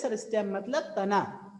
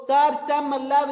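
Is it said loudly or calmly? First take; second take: calmly; loudly. First: It is said calmly and softly. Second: It is shouted loudly and hurriedly.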